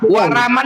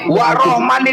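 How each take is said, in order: First: It is pronounced with a standard Indonesian accent. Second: It is pronounced with a Javanese accent. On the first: This is how Indonesian people say it. "yang memanggil orang Indonesia" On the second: This is how Javanese people say it. "yang memanggil orang Jawa"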